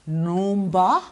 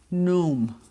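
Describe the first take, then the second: First: The word is said in full, two syllables. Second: The word is shortened to one syllable.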